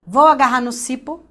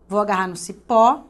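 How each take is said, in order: First: "cipo" said CÍ-po, first syllable stressed. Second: "cipó" said ci-PÓ, ending stressed; stress on last syllable. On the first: Teacher testing a strange-sounding word, "cipo" stressed on CI. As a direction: punch the "ci" of "cipo", weak "po". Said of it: "fala cada sílaba tônica". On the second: Teacher showing the audible word, "cipó" stressed on PÓ. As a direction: land firmly on the "pó" of "cipó". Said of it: "ver qual é a palavra que vai ser estranha". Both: Shown as a demonstration.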